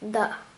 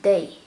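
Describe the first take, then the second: First: The syllable ends in a plain 'a' vowel. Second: The syllable ends with an 'ay' glide. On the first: The speaker calls it wrong. "It's not that" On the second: The speaker calls it right. "It's adding Ya with the pronunciation"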